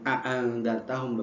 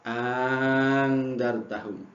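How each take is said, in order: First: It has two separate glottal stops at the start. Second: It has one glottal stop and a long vowel. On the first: "Jadi bukan a'angdartahum" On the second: "mengganti hamzah yang kedua alifan menjadi alif, dan kemudian memanjangkannya"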